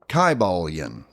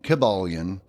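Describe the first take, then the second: First: The I vowel is a long sound. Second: The I vowel is a short sound. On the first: The speaker calls it right. "It would have been" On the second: The speaker calls it wrong. "they didn't have a short I sound. So it would not have been"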